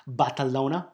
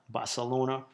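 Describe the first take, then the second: First: Barcelona with a lisped Spanish c, like "th"; Castilian "th" for the c in Barcelona; Spanish pronunciation. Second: Said in the usual way. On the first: Shown as a demonstration. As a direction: say Barcelona as "Bar-the-LO-na". Says the city two ways.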